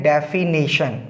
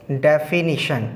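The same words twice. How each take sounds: First: "डेफिनेशन" with a long "nay" before shun; mispronounced definition. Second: "डेफिनेशन" with short "ni" before shun; correct pronunciation of definition. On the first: Teacher showing students' misspelling, "डेफिनेशन" mispronounced with "nay". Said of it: "उसमें mistake कर देते हैं". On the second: Teacher giving the correct form, "डेफिनेशन" said as defi-ni-shun. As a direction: say "डेफिनेशन" as def-fi-NI-shun, syllable by syllable. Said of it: "तो इसका जो correct pronunciation होगा". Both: Shown as a demonstration.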